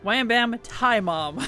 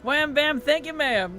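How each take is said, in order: First: The ending is read as 'tie mom'. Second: The ending is said as 'thank you, ma'am'. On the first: It imitates a text-to-speech bot's reading. The speaker calls it wrong. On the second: It is the normal spoken phrase. The speaker calls it right.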